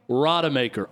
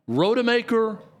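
First: The first syllable has an 'ah' vowel. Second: The first syllable has an 'oh' vowel. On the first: "Is it Ro or Ra?" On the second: "Is it Ro or Ra?"

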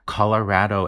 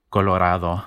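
First: It is said with an English-style vowel. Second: It is said with a Spanish 'ah' vowel. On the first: "a much more Anglo pronunciation of this word" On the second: "Because the vowel in Spanish is ah"

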